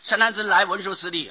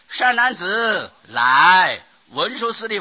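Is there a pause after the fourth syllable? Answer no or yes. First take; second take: no; yes. First: It runs on without a pause after 来. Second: There is a pause after 来. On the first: The speaker calls it wrong. "假如你读成善男子来文殊师利，没有意思" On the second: The speaker calls it right. "假如你会这样子念"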